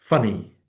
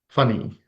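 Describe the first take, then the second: The two takes are said the same way.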